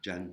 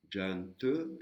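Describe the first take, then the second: First: "Jan" stopped just before the te, no final te; "Jan" ending abruptly, te unsaid; cut before te. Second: "Jan Te" with a light final te sounded; "Jan Te" with te faintly pronounced. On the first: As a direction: say "Jan", closing the mouth before any te. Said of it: "on s'arrêtait, ça faisait Jan". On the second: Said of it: "et juste avant de dire le te". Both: Shown as a demonstration.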